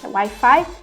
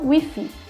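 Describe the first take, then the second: First: The i vowels are said like 'ai'. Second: The i vowels are said like 'ee'. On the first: This is how Portuguese speakers say it. "Em português é Wi-Fi" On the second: This is how Spanish speakers say it. "e em espanhol Wi-Fi"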